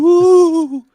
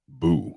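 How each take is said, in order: First: It is said in a high-pitched voice. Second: It is said in a low-pitched voice.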